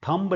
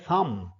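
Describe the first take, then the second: First: The word ends in a b sound. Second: The word ends in an m sound. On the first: The speaker calls it wrong. "थंब नहीं है, ब नहीं है इसमें" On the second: The speaker calls it right. "ये शब्द है थम"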